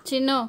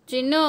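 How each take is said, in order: Both takes have the same delivery.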